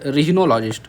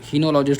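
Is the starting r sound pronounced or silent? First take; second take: pronounced; silent. First: The word begins with an r sound. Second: The word begins without an r sound. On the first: "आर बोलो, silent मत करो" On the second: "हिनोलॉजिस्ट वैसे बोलते हैं"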